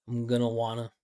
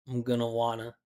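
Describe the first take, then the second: The two takes are said the same way.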